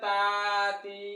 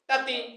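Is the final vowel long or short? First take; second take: long; short. First: The final vowel is drawn out long. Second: The final vowel is short and quick. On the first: The speaker calls it wrong. "যদি কেউ বলে যে তাতি, তাহলে এটা ভুল হবে" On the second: The speaker calls it right. "তাড়াতাড়ি উচ্চারণ"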